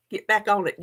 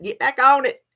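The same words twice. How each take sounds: First: Said in the usual way. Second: "Get back on it" said higher and louder, weight on "on"; firmer command. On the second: Acted. Scolding herself to get back on the diet, firmer. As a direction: push yourself back on track. Repeat with more force.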